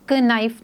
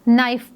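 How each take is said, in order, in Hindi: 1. यह शब्द k ध्वनि से शुरू होता है। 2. यह शब्द n ध्वनि से शुरू होता है। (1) "क नाइफ नहीं पढ़ेंगे" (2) "हम इसको नाइफ पढ़ेंगे"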